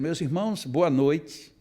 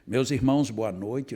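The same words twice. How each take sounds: First: The greeting is addressed directly, awaiting a reply. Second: The greeting is rushed straight into the next words. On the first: The speaker really greets the audience and expects an answer. The speaker calls it right. "se eu estou dando boa noite de verdade" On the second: The greeting is a formality not meant to be answered. The speaker calls it wrong. "fazia assim"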